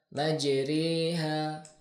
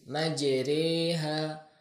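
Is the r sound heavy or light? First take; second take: light; light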